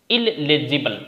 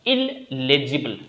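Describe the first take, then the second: No difference in how they are said.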